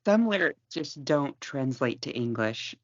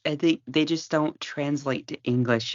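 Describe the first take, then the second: First: Slow, deadpan quip. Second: Said in the usual way. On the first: Shown as a demonstration.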